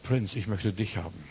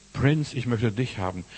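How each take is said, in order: First: Soft plea. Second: Said in the usual way. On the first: Shown as a demonstration.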